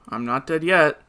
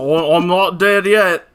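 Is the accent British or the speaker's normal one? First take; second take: normal; British. First: It is said in the speaker's normal accent. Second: It is said in a British accent.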